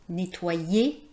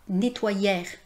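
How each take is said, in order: First: The ending sounds like 'ay' without an R. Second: The ending sounds like 'air' with an R. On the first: The speaker calls it right. "c'est nettoyer" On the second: The speaker calls it wrong. "c'est pas nettoyère"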